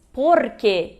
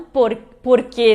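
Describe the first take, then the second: First: "porque" as POR-ke, weight on POR; stress on first syllable. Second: "porque" as por-KE, weight on the end; Portuguese final stress. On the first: Teacher gives the correct Spanish, "porque" stressed on POR. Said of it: "porque é uma palavra só, não tá acentuada". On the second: Teacher shows how people think from Portuguese, "porque" stressed on KE. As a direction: punch the last syllable of "porque". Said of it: "como as pessoas pensam do português". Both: Shown as a demonstration.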